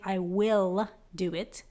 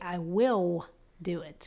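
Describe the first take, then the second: First: "will" with a full, drawn-out L; slowly, sounding the L in "will"; clear L. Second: "will" ending in a W, like "wiw"; slowly, rounding the L of "will" into W. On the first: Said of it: "instead of saying". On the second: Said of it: "we say it like a W". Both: Shown as a demonstration.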